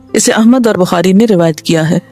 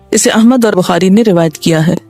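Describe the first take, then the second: No difference in how they are said.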